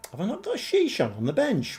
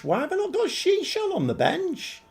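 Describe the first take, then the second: First: Quick, higher, puzzled question; sudden doubt, asked fast; puzzled surprise. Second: Much higher, disbelieving question; can't believe the selection; exasperated at own squad choice; incredulous. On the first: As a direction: notice something odd in the squad. Spots missing player on bench. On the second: Repeats, more incredulous. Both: Real, not acted.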